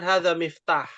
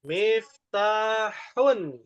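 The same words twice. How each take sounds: First: Hadza miftah with the ending dropped; wrong clipped form. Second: Miftahun with the final -un drawn out slowly; full ending. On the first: Teacher shows the wrong clipped form miftah. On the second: Teacher stresses full case ending miftahun. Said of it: "perhatikan. Cara bacanya". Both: Shown as a demonstration.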